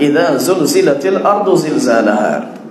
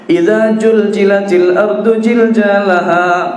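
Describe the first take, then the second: First: The repeated consonant is a sharp z sound. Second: The repeated consonant is a j sound. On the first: The speaker calls it right. "sudah kita jelaskan idza zulzil zai" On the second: The speaker calls it wrong. "karena memang tak bisa membaca zai"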